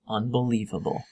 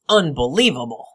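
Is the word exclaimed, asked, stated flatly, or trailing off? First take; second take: trailing off; exclaimed. First: The voice fades and trails off at the end. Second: It is said loudly and excitedly, like an exclamation. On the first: "That was an ellipsis" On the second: "with an exclamation mark"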